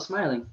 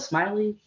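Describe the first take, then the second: First: The name ends in an 'ing' sound. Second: The name ends in an 'ee' sound. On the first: This is the name's correct pronunciation. The speaker calls it right. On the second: Someone else mispronounced the name. The speaker calls it wrong. "they'll butcher a little bit"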